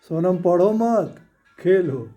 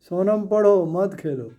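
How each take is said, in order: First: The pause comes right after the word 'मत'. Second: The pause comes right after the word 'पढ़ो'. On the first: Sonam is told not to study but to play. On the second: Sonam is told to study and not play.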